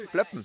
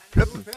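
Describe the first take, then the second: First: Said in the usual way. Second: Squeaky high pop noise; bottle pop sound. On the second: Shown as a demonstration. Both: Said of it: "Bierflaschen plöppen".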